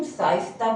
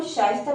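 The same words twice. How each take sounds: First: साइस्ता with a plain s; wrong s sound. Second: शाइस्ता starting with sh; correct sh sound. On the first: Teacher imitates the wrong name, plain s. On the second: Teacher gives the right name, sh sound. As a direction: say शाइस्ता with श, not s. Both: Shown as a demonstration. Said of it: "ना कि हम साइस्ता बोलेंगे".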